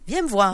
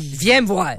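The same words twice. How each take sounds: First: It sounds friendly and cheerful. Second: It sounds stern and displeased. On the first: The reader is in a good mood and hears an invitation. "si tu as eu une belle avant-midi, tu vas le lire" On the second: The reader is in a bad mood and hears a threat. "si t'as eu une très mauvaise avant-midi"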